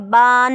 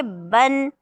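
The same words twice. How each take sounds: First: बान said with a long drawn aa as the wrong way; wrong long vowel. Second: बन said short and crisp, no long aa; short vowel. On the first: Teacher to students, showing wrong बान with long aa. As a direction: stretch बान into a long baan to show the mistake. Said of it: "बान नहीं करेंगे". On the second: Teacher to students, modelling correct short बन. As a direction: clip बन short, the right way. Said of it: "क्या पढ़ेंगे?". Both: Shown as a demonstration.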